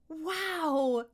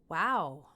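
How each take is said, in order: First: It sounds amazed and excited. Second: It sounds flat and unimpressed. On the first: Something is really amazing. "like it's really amazing" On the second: Something is not impressive at all. "not impressed"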